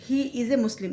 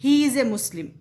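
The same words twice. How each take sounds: First: Said in the usual way. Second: "He" pushed out louder to start the example sentence; emphatic example. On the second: Shown as a demonstration. ("He" पर ज़ोर देकर बोलें) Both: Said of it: "मुझे कहना है".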